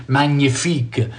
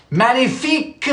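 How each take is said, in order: First: Magnifique with a "nya" sound, as in mañana, said slowly; slow Magnifique with "nya" in the middle; nasal nya pronunciation. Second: Magnifique in French, ending in a clean "-fique", higher; French pronunciation. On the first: Host teaching chat the other way, slow "nya" Magnifique. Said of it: "some people say magnif-, magneux, like nya". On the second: Host showing chat the French way, Magnifique said higher. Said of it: "You can pronounce it like the French do". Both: Shown as a demonstration.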